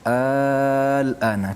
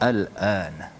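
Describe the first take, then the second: First: The opening vowel is drawn out long. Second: The opening vowel is kept short. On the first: It is asked as a question. "dia panjang" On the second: It simply means now. "kita baca pendek sajalah"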